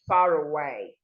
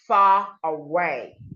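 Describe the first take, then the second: First: The R links smoothly into the next word. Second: The R is not linked to the next word. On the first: The speaker calls it right. "you would say" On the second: The speaker calls it wrong. "instead of saying"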